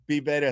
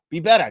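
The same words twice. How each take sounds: First: Said in the usual way. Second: Better said louder, falling; Be better, with better pushed hard; firm stress on better. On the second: Shown as a demonstration. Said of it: "Thank you so, be better".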